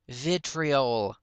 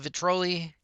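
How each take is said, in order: First: The word ends with an 'ol' sound. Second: The word ends with an 'ee' sound. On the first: The speaker calls it right. "is how I should say it" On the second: The speaker calls it wrong. "I keep mispronouncing it"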